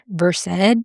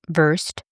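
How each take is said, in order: First: It sounds different from the everyday word versed. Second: It sounds like the everyday English word versed. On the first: The speaker calls it right. "but it's pronounced Versed" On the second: The speaker calls it wrong. "It's spelled Versed, which is how I've been saying it"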